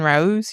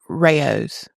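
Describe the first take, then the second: First: The name is said as one syllable, rhyming with nose. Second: The name is said as two syllables, ray-ohs. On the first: This is the way it had been said before. The speaker calls it wrong. "we've been saying Rose" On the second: This is the correct way to say the name. The speaker calls it right. "no, it's Rayo's"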